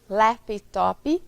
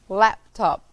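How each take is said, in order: First: An extra i vowel is added at the end. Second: The word ends cleanly on the final consonant. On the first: The speaker calls it wrong. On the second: The speaker calls it right.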